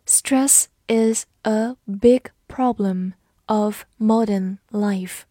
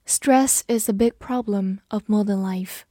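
First: Slow and even, each word given room; slow reading. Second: Said in the usual way. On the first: Shown as a demonstration. Teacher slowly reads the example sentence for learners. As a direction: read it slowly for the class to repeat. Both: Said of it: "好，慢读一遍".

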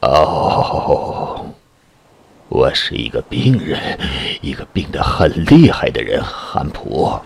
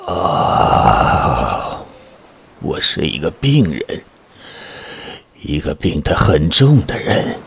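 First: Low, slow moaning fear; sick and frightened. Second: Low weary moaning repeat; sick and frightened. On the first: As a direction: groan it out, ill and scared. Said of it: "嗓子依然沙哑，声音充满惧怕". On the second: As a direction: moan it again, ill and scared. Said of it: "他重复说". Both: A narrator's reading.

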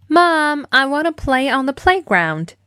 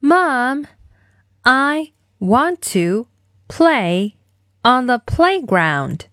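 First: Said in the usual way. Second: Slow, word-by-word model line; spaced-out demo for kids to repeat; slow follow-along model. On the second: Shown as a demonstration. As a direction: say it slowly, one chunk at a time. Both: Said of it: "一起来练习今天的跟读作业".

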